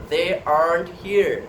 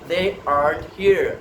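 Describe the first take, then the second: Both takes have the same delivery.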